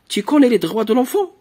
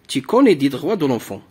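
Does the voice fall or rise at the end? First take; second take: rises; falls. First: The voice rises at the end of the sentence. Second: The voice falls at the end of the sentence. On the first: It asks a question. "on va utiliser l'intonation pour exprimer l'interrogation" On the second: It states a fact. "Supposons qu'il n'y a pas de point d'interrogation. Il y a ici un point"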